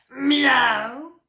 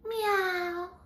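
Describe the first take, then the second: First: The meow is made with a rough growl. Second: The meow is airy and breathy. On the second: "Ilmava kissa"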